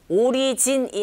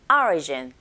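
First: Each syllable is said evenly, with Korean sounds. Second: The first syllable is strongly stressed, English-style. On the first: The speaker calls it wrong. "오리진이 아니고" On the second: The speaker calls it right. "앞에 철자 O의 강세가 딱 갔어요"

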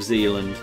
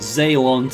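First: It is pronounced the English way. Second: It is pronounced the Dutch way. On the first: The speaker calls it wrong. "instead of Zealand" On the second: The speaker calls it right. "at least I know"

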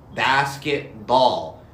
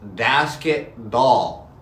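No difference in how they are said.

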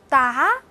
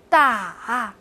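First: The syllable is said with a rising tone. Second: The syllable is said with a low dipping tone. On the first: "哒的四声" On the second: "哒的四声"

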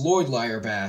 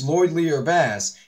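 First: The 'ier' sounds like the word 'ire'. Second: The 'ier' sounds like the word 'ear'. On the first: This is the accidental misreading of the name. The speaker calls it wrong. "He just pronounced it by accident as LordlierBass" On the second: This is how the owner says the name. The speaker calls it right. "Like you said, it's LordlierBass"

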